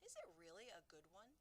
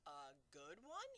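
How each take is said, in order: First: Said in the usual way. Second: Slow, disbelieving giant's echo; crying out in disbelief. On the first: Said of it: "Sophie asked". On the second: Acted. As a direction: throw the question back in astonishment. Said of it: "he cried".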